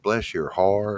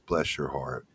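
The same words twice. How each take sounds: First: It is said in a Southern accent. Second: It is said in a neutral accent.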